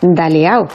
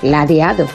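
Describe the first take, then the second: First: The word starts with 'da' and drops the d. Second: The word starts with 'la' and keeps every sound. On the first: This is how it is said at home. "en mi casa toda la vida... se ha dicho daleao" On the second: This is the standard form. "Es ladeado"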